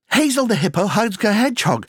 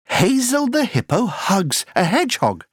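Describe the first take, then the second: First: The sentence is spoken at a very fast pace. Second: The sentence is spoken at a fast pace. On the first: "Encore plus vite" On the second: "Allez plus vite"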